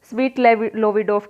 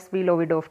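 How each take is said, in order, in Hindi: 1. पहले शब्द के अंत का t उच्चारित होता है। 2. पहले शब्द के अंत का t छोड़ दिया जाता है। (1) "स्वीट स्वीट लोविडोफ कह लेना" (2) "कई बार इसमें टी साइलेंट भी हो जाता है"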